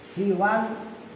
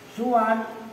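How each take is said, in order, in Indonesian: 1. Vokal pertama adalah bunyi 'i'. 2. Vokal pertama adalah bunyi 'u'. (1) "Siwan seperti ridon" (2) "Suwan seperti logatnya hujan"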